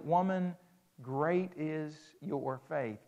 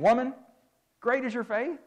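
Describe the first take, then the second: First: It is said in a tender, gentle tone. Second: It is said in a harsh, rude tone.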